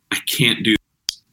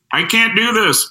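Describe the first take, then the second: First: Said in the usual way. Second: High-pitched mocking call; mocking heckler. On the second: Heckler mimics him from the back of the room, high mocking call. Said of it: "someone in the back of the room would go".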